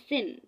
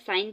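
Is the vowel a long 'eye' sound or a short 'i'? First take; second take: short i; eye. First: The vowel is a short 'i' sound. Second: The vowel is a long 'eye' sound. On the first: The speaker calls it right. "इसको आपने word पढ़ना है सिन" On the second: The speaker calls it wrong. "ओहो sorry, मैं पूरी video में साइन पढ़ती गई हूँ"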